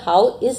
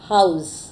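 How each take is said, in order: First: Both words are said fully and separately. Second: The two words merge into one short syllable. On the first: "यहाँ पर हाउ इज़ लिखा है ना" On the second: "को हमने English में कैसे बोला, हाउस"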